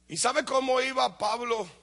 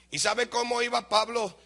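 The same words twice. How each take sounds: The two takes are said the same way.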